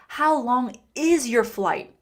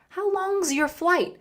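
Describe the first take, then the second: First: The word 'is' is said as a separate word. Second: 'Long is' is contracted with a Z sound.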